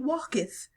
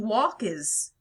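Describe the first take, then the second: First: The verb ends with a th sound. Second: The verb ends with a z sound. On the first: The speaker calls it wrong. "we're pronouncing it the wrong way" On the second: The speaker calls it right. "They would have pronounced it as E Z"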